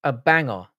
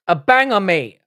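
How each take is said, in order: First: Said in the usual way. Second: Loud excited yell; hyped shout. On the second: Shown as a demonstration. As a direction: shout it with hype.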